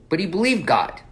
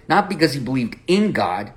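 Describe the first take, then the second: First: "believed" pressed, "God" right after with no "in"; stress on believed. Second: "in" marked, then the phrase drops; stress on in. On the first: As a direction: punch "believed", then a short falling "God". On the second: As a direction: lean on the word "in": believed IN God. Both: Shown as a demonstration.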